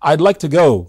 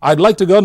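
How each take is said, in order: First: Would is contracted to I'd. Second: The same.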